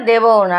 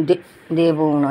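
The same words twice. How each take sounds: First: Said in the usual way. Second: Low, slow sulky refusal দেবও না; stubborn pet voice. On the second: Pretend. Owner voices Mixi refusing to share, low and slow. Pet voice repeated plainly later.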